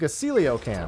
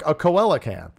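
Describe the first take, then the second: First: The word has its usual, unspelled-like pronunciation. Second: The word is sounded out as it is spelled. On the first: "Whose pronunciation I hate" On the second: "the common sense way of reading that"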